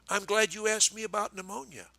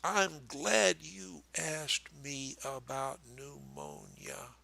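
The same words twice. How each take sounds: First: It is said quickly, all run together. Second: It is said slowly but still linked.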